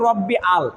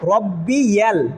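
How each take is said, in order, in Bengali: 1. শব্দটি দুই ভাগে ভাগ করা। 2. শব্দটি 'y' ধ্বনি দিয়ে জোড়া লাগানো।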